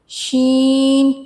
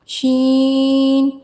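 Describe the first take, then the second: The two takes are said the same way.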